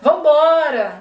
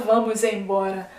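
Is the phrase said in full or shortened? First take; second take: shortened; full. First: The two words merge into one clipped word. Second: Every syllable of the phrase is pronounced fully. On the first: "Assim meio cortado" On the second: "a gente não fala"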